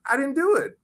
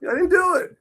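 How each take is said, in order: First: High mock whine; whiny protest. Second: Very high mock whine; whiny protest. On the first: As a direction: plead like a cheated kid. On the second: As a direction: squeal the protest. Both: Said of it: "I was like".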